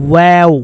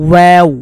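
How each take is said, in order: The two takes are said the same way.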